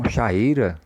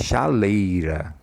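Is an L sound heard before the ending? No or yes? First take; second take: no; yes. First: The vowels meet directly with no L between. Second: An L sound links the vowels together. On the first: The speaker calls it wrong. "você não tem chaeira não? Chaeira, né? Não" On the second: The speaker calls it right. "é chaleira, né? Veja como soa diferente"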